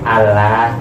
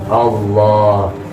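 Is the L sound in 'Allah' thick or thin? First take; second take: thin; thick. First: The double L is light and thin. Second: The double L is heavy and thick. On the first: It belittles God. The speaker calls it wrong. "Kalau tipis dibaca tipis" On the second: It glorifies God. The speaker calls it right. "dibaca tafkhim, dibaca tebal"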